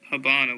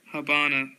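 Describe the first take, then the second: First: Habana said with a strange, overdone vowel; odd Habana. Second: Said in the usual way. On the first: Real, not acted. Reading a word list, says Habana in an odd way. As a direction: catch yourself saying Habana oddly. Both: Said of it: "Why did I say it like that?".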